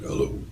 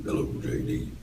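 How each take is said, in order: First: Said in the usual way. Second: A very low, breathy bass hello; imitating J D's low voice. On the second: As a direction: drop to the bottom of the voice like a bass singer. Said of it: "his low voice".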